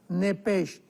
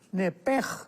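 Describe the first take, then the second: First: The word ends with a soft 'sh' sound. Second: The word ends with a throaty 'j' sound. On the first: "con ese hache al final" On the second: "la ese hache con J, entonces la pronunciación hebrea es nepej"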